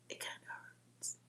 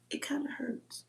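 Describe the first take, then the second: First: Fading, tearful whisper; almost inaudible, about to cry; near tears. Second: Hushed, tearful whisper; soft voice on the verge of crying; near tears. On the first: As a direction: barely get the words out. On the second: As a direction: let it catch in the throat as it hurts. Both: Real, not acted. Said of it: "I'm gonna start crying".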